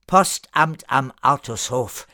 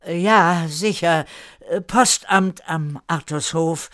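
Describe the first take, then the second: First: Firm, sober statement; serious. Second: Higher, slow, hesitant agreement; audibly uneasy. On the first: Erika corrects the joking postman, serious. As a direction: state it plainly, no more joking. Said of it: "Erika wurde ernst". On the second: Newcomer agrees with Erika with a bad feeling, uneasy. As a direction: agree haltingly, unsure of it. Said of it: "antwortete mit einem hörbar unguten Gefühl". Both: A narrator's reading.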